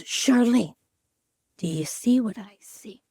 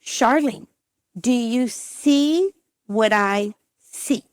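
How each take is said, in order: First: Hushed doctor. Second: Slow, drawn-out leading question; pointed doctor. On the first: Retelling doctor at the ultrasound. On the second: Doctor prompting patient at the screen, pointedly slow. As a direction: stretch each word, pausing before the last. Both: Retold or imitated.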